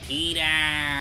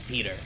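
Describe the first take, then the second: First: It is said in an imitated, put-on voice. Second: It is said in the speaker's normal voice.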